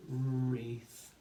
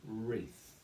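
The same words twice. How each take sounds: First: WREATH stretched out, r held long; blending the sounds. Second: Said in the usual way. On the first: Shown as a demonstration. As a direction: slide slowly through the sounds of WREATH. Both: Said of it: "we build the word".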